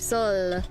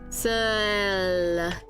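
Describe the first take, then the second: First: The word is said at normal speed. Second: The word is said slowly and drawn out.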